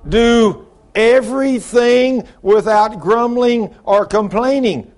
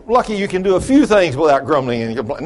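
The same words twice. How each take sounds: First: "everything" punched high, loud and drawn out; slow, ringing command with weight on "everything"; emphatic correction. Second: "few" stressed as a joking concession; wry misquote leaning on "few"; mock misquote. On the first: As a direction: hammer "everything" slowly, word by word. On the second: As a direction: toss in "few" as if that were the rule. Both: Shown as a demonstration. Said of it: "that's not what the king said".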